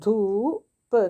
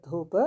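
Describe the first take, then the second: First: "ധൂപ്" louder with a long stretched vowel; teacher slowly sounding out "ധൂപ്"; drawn-out reading. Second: Said in the usual way. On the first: Shown as a demonstration. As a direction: stretch the middle of "ധൂപ്", then release the last sound. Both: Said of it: "നമ്മൾ നേരത്തെ വായിച്ചു ആ വാക്കല്ലേ".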